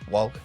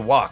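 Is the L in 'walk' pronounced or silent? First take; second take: pronounced; silent. First: The L sound is clearly pronounced in the word. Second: The L sound is silent in the word. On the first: This is how people from Pennsylvania say it. "People from Pennsylvania really um, say the L in words" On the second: This is how the speaker's own group says it. "we say walk"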